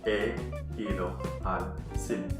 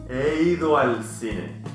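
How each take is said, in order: First: The words are said separately, not run together. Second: The words run together across the vowels. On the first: The speaker calls it wrong. "instead of" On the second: The speaker calls it right. "pronounce them together"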